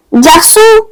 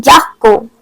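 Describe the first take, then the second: First: Garçon with an S sound in the middle, "gar-son"; correct soft C. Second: Garçon wrongly said with a K, "gar-kon"; hard C mispronunciation. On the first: Teacher contrasts cédille spelling, garçon said with S. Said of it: "So without accent cédille". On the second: Teacher shows missing cédille, garçon said with K. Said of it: "would sound like". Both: Shown as a demonstration.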